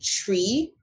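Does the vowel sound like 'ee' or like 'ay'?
ee. The word ends with an 'ee' vowel. This is the speaker's own way of saying it. "whether I say tree or tray depends on where I'm from"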